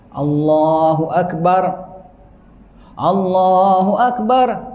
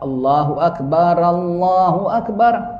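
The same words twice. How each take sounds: First: The first akbar stops fully before the next phrase. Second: The first akbar runs with a vowel into Allahu. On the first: "Yang keempat diwakafkan" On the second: "Kalau nak diwasal"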